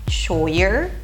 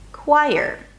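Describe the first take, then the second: First: It begins with a ch sound, read as spelled. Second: It begins with a k sound, like quire. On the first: The speaker calls it wrong. "If I were to read it phonetically" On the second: The speaker calls it right. "the C H stands for a K sound"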